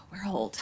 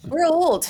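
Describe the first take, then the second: First: Whispered, much softer echo; hushed aside. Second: High, loud exclamation; mock outcry. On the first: Podcast guest echoing their own joke about age, whispered. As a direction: whisper it to yourself. Repeats the joke under breath. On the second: Podcast guest reacting to pre-seatbelt memories, high loud outcry. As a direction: call it out in comic dismay. Joking realization about their age. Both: Real, not acted.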